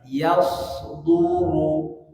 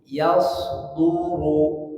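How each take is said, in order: No difference in how they are said.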